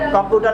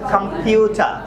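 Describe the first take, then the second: First: The second syllable lacks a clear 'yoo' sound. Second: The second syllable has a clear 'pyoo' sound. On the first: The speaker calls it wrong. "এটা হবে কম্পিউটার না" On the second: The speaker calls it right. "এটা হবে কম্পিউটার"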